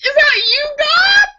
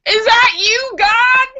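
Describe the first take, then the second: First: Extremely high, loud squeal; shouting to God. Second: Very high, loud shout; shouting to God. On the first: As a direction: yell up to the sky, hamming it up. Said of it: "That's a funny one". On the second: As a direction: yell up to the sky in awe. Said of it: "The stoner shouts". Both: Acted.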